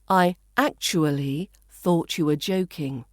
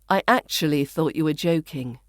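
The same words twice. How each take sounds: First: Actually is said slowly with every syllable. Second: Actually is said fast with syllables squeezed. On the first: "the first, which is the slower, fuller pronunciation" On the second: "the fast, more natural-sounding pronunciation in the second version"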